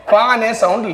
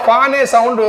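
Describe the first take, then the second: No difference in how they are said.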